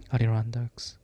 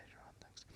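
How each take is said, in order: First: Said in the usual way. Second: Adirondacks whispered, without voice, after stumbling on it; whispered take. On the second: Shown as a demonstration. Reader whispers Adirondacks after several failed tries.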